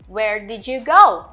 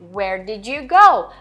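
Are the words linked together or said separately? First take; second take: linked; separately. First: The words run together quickly and linked. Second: The words are said separately and slowly.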